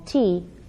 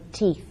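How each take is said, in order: First: The final th sound is left out. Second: The final th sound is pronounced. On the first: The speaker calls it wrong. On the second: The speaker calls it right.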